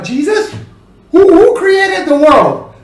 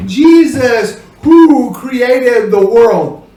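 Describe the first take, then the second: First: "Jesus" rising, then high, puzzled "who created the world?"; turned into a question. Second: "who created the world" said slowly as a firm statement, falling; statement with relative who. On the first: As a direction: ask "who" high and loud as a real question. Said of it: "because that makes it". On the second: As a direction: describe Jesus, no questioning tone on "who". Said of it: "as hearing people in English". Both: Shown as a demonstration.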